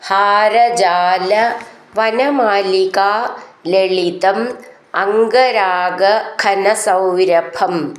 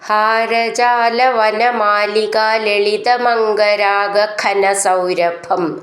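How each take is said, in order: First: The words lalitam and angaraaga are said separately. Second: The words lalitam and angaraaga run together.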